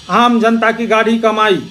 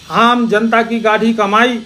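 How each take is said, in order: Both takes have the same delivery.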